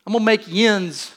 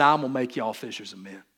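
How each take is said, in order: First: A slightly louder Pittsburgh accent, "yins" said as "yinz"; Jesus recast as a Pittsburgh man, in a light Pittsburgh accent. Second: A lightly drawn Southern accent, lower; Jesus as a Southern man, in a light Southern accent. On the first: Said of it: "a Pittsburgh thing". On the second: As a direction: give "y'all" an easy Southern twang. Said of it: "if Jesus was a Southern man". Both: Shown as a demonstration.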